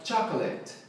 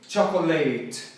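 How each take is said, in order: First: The stress falls on the first syllable. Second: The stress falls on a later syllable. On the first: The speaker calls it right. "Assim com o cho na ênfase" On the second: The speaker calls it wrong. "a galera tende a falar o quê?"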